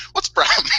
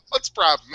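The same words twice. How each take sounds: First: Breathy mock casual question, higher and half laughing; best casual delivery. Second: Imitating an utterly casual shrug of a question. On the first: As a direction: deliver the unbothered line as the punchline. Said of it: "That was your best delivery". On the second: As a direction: toss it off lightly, as if nothing is happening. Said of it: "in the most casual voice possible".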